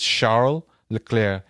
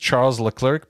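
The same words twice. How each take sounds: First: The name is said the way it really goes. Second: The name is said the way one would guess. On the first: The speaker calls it right. "but it's" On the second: The speaker calls it wrong. "you would think it's"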